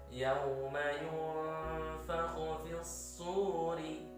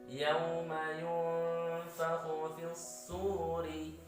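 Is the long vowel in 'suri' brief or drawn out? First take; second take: brief; brief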